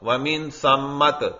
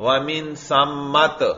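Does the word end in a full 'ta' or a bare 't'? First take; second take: bare t; bare t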